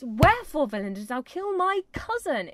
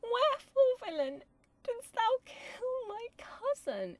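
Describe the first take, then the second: First: Loud, indignant demand; raised, forceful acted outrage; angry Juliet. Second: Very high, drawn-out lament; plaintive, slow, hammed-up grief; mock sad Juliet. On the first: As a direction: hurl the accusation at him. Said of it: "It's angry". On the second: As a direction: overplay the helpless young tragic heroine. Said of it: "about her being so sad". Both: Shown as a demonstration.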